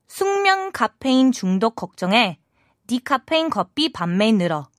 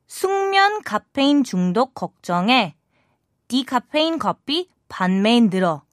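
First: It is read at a normal speed. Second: It is read a little more slowly.

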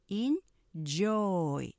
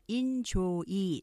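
First: It is said in two syllables, stressing the second. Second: It is said in three syllables. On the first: The speaker calls it right. "enjoy 뒤에 액센트 강조하시고 이음절 되시는 거예요" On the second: The speaker calls it wrong. "우리가 보통 enjoy 삼음절로 하지만"

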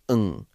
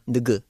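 First: The n and g sounds melt together. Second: The n and g sounds are kept separate. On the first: The speaker calls it right. "it's ng" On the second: The speaker calls it wrong. "that's not ng"

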